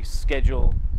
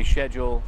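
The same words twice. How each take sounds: First: It is said in an American accent. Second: It is said in a British accent. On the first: "you say" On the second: "we say"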